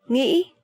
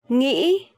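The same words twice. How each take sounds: The two takes are said the same way.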